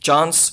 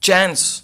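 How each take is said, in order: First: It is said with a British accent. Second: It is said with an American accent. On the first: "British English" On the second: "American"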